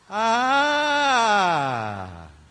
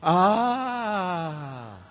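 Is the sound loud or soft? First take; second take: loud; soft. First: The sound is said loudly. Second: The sound is said softly. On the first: The speaker calls it right. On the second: The speaker calls it wrong.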